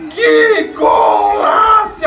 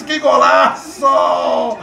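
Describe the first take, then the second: First: High, slow drawn-out golaço; long goal scream. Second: Drawn-out goal cry. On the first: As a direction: stretch and scream Que golaço. Celebrating goal, louder higher. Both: Real, not acted.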